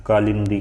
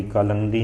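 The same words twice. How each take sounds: First: Loud, firm "कालिंदी" with "lin"; emphatic model reading of "कालिंदी"; correct form "कालिंदी". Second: "कालंदी" with "lan" in the middle; the mistaken "कालंदी", no i before the n; wrong form "कालंदी". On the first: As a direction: stress out "कालिंदी" with short i before the n. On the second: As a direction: say "कालंदी" with short a for the i. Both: Shown as a demonstration. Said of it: "कालंदी नहीं होता".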